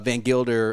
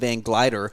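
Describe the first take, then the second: First: A vowel comes between the G and L. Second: The L comes right after the G. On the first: The speaker calls it right. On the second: The speaker calls it wrong.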